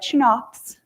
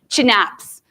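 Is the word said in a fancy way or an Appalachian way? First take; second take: fancy; Appalachian. First: It is said in a fancy, standard way. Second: It is said with an Appalachian twist. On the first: This is how most people say it. "most people say it in a very fancy way" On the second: This version makes the term hard to forget. "I'm Appalachian... I like to throw a little twist on it"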